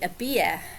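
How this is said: The R at the end is dropped. "and they would say a beer"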